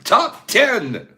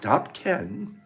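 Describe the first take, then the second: First: The phrase is yelled loudly. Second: The phrase is said at normal volume. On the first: "Why do I have to yell top ten?" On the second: "Why can't I just say top ten?"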